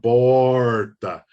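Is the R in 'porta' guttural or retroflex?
retroflex. The R is strongly pulled and retroflex. This is the rural interior accent. "o R bem, é bem puxado"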